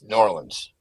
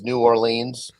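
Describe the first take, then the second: First: The name is cut down short and tight. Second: The name is said fully, not cut down. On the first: This is how locals say it. "If you're from there, it's New Orleans... they cut it down real nice and tight" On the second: This is how people from elsewhere say it. "the rest of the country says New Orleans"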